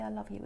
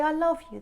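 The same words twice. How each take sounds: First: A soft, tossed-off I love you; quiet casual I love you after laughing; offhand, mid-laugh. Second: A loud, sudden I love you; sudden outburst of love, louder; blurted out. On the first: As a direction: say it lightly, almost under the laughter. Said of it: "They might be laughing and laughing". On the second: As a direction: blurt it out brightly. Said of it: "They might say". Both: Pretend.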